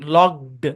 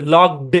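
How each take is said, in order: First: The ending is a voiced d sound. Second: The same.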